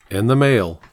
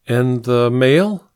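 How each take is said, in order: First: "And the mail," falling flat on "mail"; agreeing. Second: "And the mail?" slow, rising on "mail"; prompting question. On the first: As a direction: settle it with "And the mail," dropping on "mail". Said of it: "he agreed". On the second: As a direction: nudge him with "And the mail?", lifting "mail". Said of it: "she prompted". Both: A narrator's reading.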